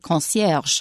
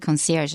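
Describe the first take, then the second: First: It is pronounced with a French accent. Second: It is pronounced with an American accent. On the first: "In real French, it's more like concierge" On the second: "but we say concierge in English"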